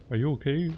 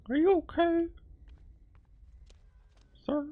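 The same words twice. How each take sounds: First: Said in the usual way. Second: Very high, thin character voice; squeaky high voice. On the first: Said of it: "Are you okay? repeated in high voice". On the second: Pretend. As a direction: ask it in a tiny high squeak. Voicing a character asking stranger.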